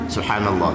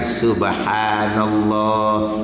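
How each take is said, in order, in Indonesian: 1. Diucapkan dengan cepat, vokal panjangnya hampir tidak terdengar. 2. Diucapkan dengan lambat, vokal panjangnya jelas terdengar. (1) "kalau kita cepat" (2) "itu cara anjur. Nyatalah subhan, panjang tu"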